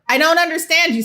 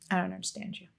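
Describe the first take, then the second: First: It is said more loudly. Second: It is said at normal volume.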